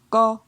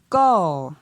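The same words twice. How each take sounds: First: The syllable is said on a mid tone. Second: The syllable is said on a falling tone. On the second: "Et pour un ton descendant"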